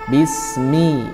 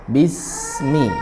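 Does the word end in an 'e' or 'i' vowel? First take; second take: i; i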